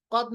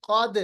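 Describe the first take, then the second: First: First क़द with a dead द; wrong pronunciation demo. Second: क़द with the द bounced; qalqalah demo. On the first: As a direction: shut क़द off with no echo. (बिना क़लक़ला के ग़लत क़द) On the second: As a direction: release क़द with an echo on द. (क़लक़ला के साथ सही क़द) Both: Shown as a demonstration. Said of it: "क़द नहीं, क़द".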